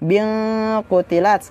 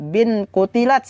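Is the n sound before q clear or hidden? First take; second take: hidden; clear. First: The n is hidden and nasalized before q. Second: The n is pronounced clearly before q. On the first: The speaker calls it right. "Akan tetapi dibaca" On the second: The speaker calls it wrong.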